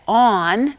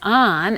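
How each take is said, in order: First: The vowel is a rounded aw sound. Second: The vowel is an open ah sound.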